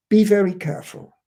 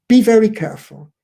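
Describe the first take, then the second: First: Said in the usual way. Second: Firm warning. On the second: Shown as a demonstration.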